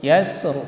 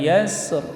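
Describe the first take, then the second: Both takes have the same delivery.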